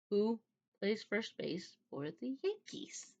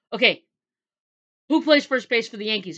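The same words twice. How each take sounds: First: Slow, hushed retold question, rising at the end; quietly persistent. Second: Loud, higher retold quizzing; insistent demand. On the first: Suspicious man repeats his test question, quietly insistent. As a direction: ask it softly and deliberately, word by word. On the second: Man quizzing her at the worst moment, loudly insistent. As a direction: fire the question out abruptly and firmly.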